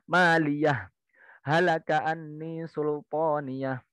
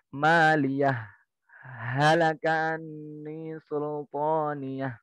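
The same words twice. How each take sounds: First: There is a full stop after maliyah. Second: There is a brief pause after maliyah. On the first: "Bacaan yang pertama wakaf semua" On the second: "Bacaan yang ketiga saktah"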